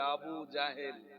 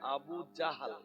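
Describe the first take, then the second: First: The last syllable has an 'e' vowel: 'hel'. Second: The last syllable has an 'a' vowel: 'hal'. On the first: The speaker calls it wrong. "অনেকে তো একদম পরিষ্কার করে বলে আবু জাহেল, উচ্চারণ ঠিক না" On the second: The speaker calls it right. "Actual উচ্চারণ আবু জাহাল"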